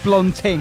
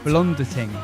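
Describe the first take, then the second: First: The name is said with two syllables. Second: The name is said with three syllables. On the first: The speaker calls it right. "It's blonding" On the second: The speaker calls it wrong. "I added an extra syllable in"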